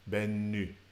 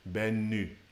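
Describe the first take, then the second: No difference in how they are said.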